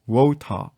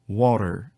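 First: British accent, with a strong, crisp T. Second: American accent, with a soft, flapped T. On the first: "영국식입니다. ... T 발음이 훨씬 더 강하죠?" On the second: "우선은 미국 발음"

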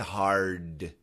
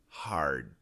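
First: The final D is fully released with a puff. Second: The final D is stopped but still voiced. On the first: The speaker calls it wrong. "Even though we don't say hard" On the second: The speaker calls it right. "we can still stop the D, but there's still vibration"

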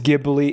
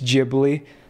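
First: It begins with a hard G sound. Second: It begins with a J sound. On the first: The speaker calls it wrong. "I know a lot of people think it's Ghibli. It's not" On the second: The speaker calls it right. "It's Ghibli"

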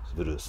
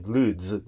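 First: The word ends with an s sound. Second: The word ends with a z sound. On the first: This is the common Japanese rendering. "日本人が普及している言葉としてブルース" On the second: This is the original English pronunciation. "もともと英語の発音は実際にブルーズなんですね。Z なんですよ。最後の発音がね"

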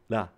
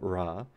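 First: The first consonant is an L-like flap. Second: The first consonant is an English R sound. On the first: The speaker calls it right. "the correct Japanese pronunciation would be something like la" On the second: The speaker calls it wrong. "if you're an English speaker trying to pronounce it and reading it, you'll go ra"

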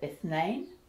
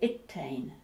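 First: The consonant after the first vowel is th. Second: The consonant after the first vowel is t. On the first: This is the standard pronunciation. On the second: This is the Egyptian pronunciation.

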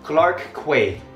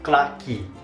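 First: It is said in an American accent. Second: It is said in a Singaporean accent, Quay as key. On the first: "America, I think we will pronounce it Clark Quay" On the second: "シンガポールだとClark Quay. So the Quay part is pronounced as Key"

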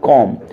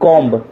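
First: The word ends on the m sound. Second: A b sound is heard at the end. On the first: The speaker calls it right. "सही क्या है" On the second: The speaker calls it wrong. "जो हम पढ़ते हैं"

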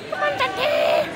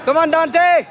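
First: It is said in a put-on Asian voice. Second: It is said in his normal voice.

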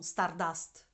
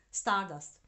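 First: The stress is on the second syllable. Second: The stress is on the first syllable. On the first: The speaker calls it wrong. "non Stardust" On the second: The speaker calls it right. "con l'accento sulla A"

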